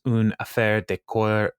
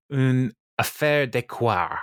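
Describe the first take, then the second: First: "une affaire de coeur" sounded out slowly, unsure; tentative French. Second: Slow, drawn-out attempt at a French accent. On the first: Podcaster quoting the interviewer's French phrase, tentative French. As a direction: attempt "une affaire de coeur" haltingly with an English-speaker's French. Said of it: "I don't know how to say". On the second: Podcaster retrying the French for a co-host, deliberate French accent. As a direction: put on a French accent for "affaire de coeur", stretching it out. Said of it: "Does that sound right?". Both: Shown as a demonstration.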